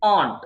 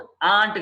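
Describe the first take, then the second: First: Aunt with a broad "ah"; correct pronunciation. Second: Aunt with a flat "a" as in ant; mistaken pronunciation. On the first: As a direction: say Aunt as "ahnt". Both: Shown as a demonstration. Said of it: "aunt కాదు".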